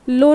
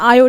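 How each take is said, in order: First: The name begins with an L sound. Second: The name begins with a vowel sound. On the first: The speaker calls it wrong. "इसका लो नहीं" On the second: The speaker calls it right. "नहीं तो आयो"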